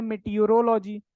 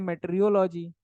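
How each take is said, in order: First: मेटियोरोलॉजी said in full as me-ti-yo-ro-lo-ji; one way people say it. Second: मेट्रियोलॉजी said with tr as me-tri-yo-lo-ji; other way people say it. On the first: Teacher demonstrates how some students say मेटियोरोलॉजी. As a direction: give मेटियोरोलॉजी every syllable, with the o sound after ti. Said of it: "कुछ लोग पढ़ते हैं". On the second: Teacher demonstrates the other way students say मेट्रियोलॉजी. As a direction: squeeze मेट्रियोलॉजी into met-ri-yo-lo-ji with no o after ri. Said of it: "कुछ लोग बोल देते हैं". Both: Shown as a demonstration.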